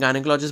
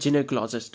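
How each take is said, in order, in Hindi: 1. पहला अक्षर 'guy' जैसा सुनाई देता है। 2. पहला अक्षर 'jin' जैसा सुनाई देता है। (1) "हम अपनी लेम लैंग्वेज में गायनोकोलॉजिस्ट बोल देते हैं" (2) "करेक्ट प्रोनाउंसिएशन देखोगे तो ये जिनेकोलॉजिस्ट होता है"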